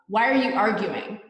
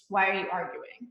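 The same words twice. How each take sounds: First: The tone is sharp and angry. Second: The tone is calm and neutral.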